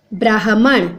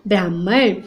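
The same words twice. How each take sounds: First: "ब्राह्मण" as braa-ha-man; vowel after h in "ब्राह्मण"; three syllables in "ब्राह्मण"; wrong pronunciation. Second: "ब्राह्मण" as braah-man; no vowel after h in "ब्राह्मण"; low "ब्राह्मण" in two syllables; correct pronunciation. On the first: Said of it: "इसमें ह के नीचे". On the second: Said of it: "हलंत आ गया". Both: Shown as a demonstration.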